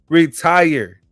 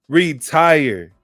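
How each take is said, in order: Both takes have the same delivery.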